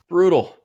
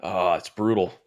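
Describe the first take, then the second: First: Louder and higher Brutal; emphatic repeat. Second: Said in the usual way. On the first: Real, not acted. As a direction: punch the word out again.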